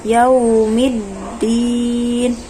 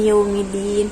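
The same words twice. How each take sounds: First: The doubled d is held with firm pressure. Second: The doubled d is short and weakly pressed. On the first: The speaker calls it right. "dia dinabar ya" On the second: The speaker calls it wrong. "Jadi jangan yaumiddin ... itu kurang dinabar"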